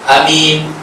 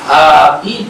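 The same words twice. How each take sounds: First: The first vowel is cut short. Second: The first vowel is held for two beats. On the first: "a tu dipendekkan" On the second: "a di depan itu dia mesti dua harakat saja"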